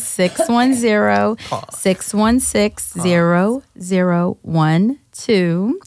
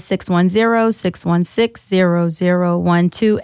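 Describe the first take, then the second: First: The number is said slowly, with pauses. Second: The number is said fast, without pauses.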